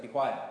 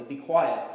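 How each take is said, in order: First: Understated, offhand order; casual command. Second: Firm, confident command; authoritative, confident. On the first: Jesus to a demon freaking out, casual order. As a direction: say it as a casual, matter-of-fact command. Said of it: "It's just so casual". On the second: Jesus commanding the demon, authoritative and stern. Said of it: "authoritatively, confidently". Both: Retold or imitated.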